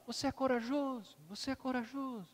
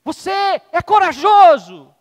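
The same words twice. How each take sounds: First: Softer and softer repeats; echo. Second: High, very loud, slow call; proud shout. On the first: The echo returns the father's words, fading echo. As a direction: let it die away. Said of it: "o eco". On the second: Father shouts again to show the echo, very loud slow call. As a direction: shout it out to the hills. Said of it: "Vou fazer de novo". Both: Acted.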